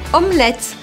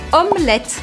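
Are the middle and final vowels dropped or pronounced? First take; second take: dropped; dropped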